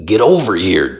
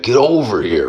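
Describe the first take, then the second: First: Said in the usual way. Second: Lightly voiced, pitched-up Scorpion call. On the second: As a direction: call it out like the game ninja. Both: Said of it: "Scorpion voice".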